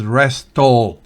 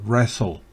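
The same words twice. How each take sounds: First: The t sound is pronounced in the middle. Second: The t sound is silent in the middle. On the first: The speaker calls it wrong. "esa T no se pronuncia. no es wrestle" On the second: The speaker calls it right. "sino wrestle"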